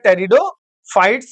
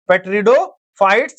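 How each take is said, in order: First: The word begins with a T sound. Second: The word begins with a sounded P. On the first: The speaker calls it right. "टेरिडोफाइट्स बोलेंगे। पी silent" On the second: The speaker calls it wrong. "पेट्रिडो नहीं बोलेंगे"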